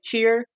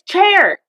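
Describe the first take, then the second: First: The vowel sounds like 'ee', as in cheer. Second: The vowel sounds like 'eh', as in chair. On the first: The speaker calls it wrong. "when we say cheer" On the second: The speaker calls it right. "She'd be like, it's chair"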